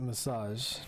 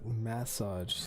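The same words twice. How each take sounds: First: The word is said as one smooth unit. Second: The word is split into 'mass' plus 'age'. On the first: The speaker calls it right. "I pronounce it massage" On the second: The speaker calls it wrong. "Like if they're cutting apart the last three letters and pronouncing the first four first"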